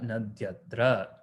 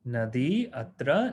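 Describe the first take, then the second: First: The final i turns into y, joining atra. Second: The final i vowel is kept before atra.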